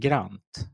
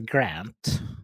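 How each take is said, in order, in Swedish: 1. Namnet uttalas med svensk accent. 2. Namnet uttalas med amerikansk engelsk accent. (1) "i svensk så blir det Grant" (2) "i det amerikanskt så är det Grant"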